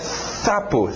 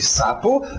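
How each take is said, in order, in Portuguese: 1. O primeiro som é abafado pela língua. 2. O primeiro som é um s sibilante normal. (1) "abafado pela língua, ou a pessoa que tem a língua presa dizendo sapo" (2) "um S. De sapo"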